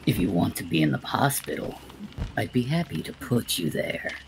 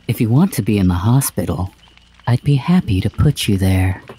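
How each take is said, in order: First: It is said in the speaker's natural voice. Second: It is said in a put-on spooky character voice.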